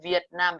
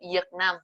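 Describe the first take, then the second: First: It is spoken with a northern Vietnamese accent. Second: It is spoken with a southern Vietnamese accent. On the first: "in Hanoi we will say Việt Nam because it's V" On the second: "in Ho Chi Minh we say Việt Nam"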